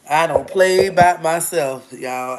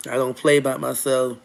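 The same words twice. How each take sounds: First: Louder, slower, each word pressed: "I don't play by myself"; emphatic insistence. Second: Said in the usual way. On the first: Real, not acted. Insisting to her viewers, loud and slow on "play".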